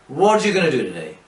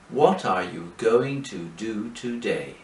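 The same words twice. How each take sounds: First: The sentence is spoken very quickly, words run together. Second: The sentence is spoken slowly, each word separate. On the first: "in fact they are speaking very fast" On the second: "But English people don't speak like that"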